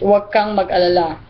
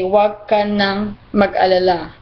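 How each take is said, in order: First: The words ka and nang merge into kang. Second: The words ka and nang are said separately. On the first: "we just shorten it with" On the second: "Normally, the whole sentence, we will say"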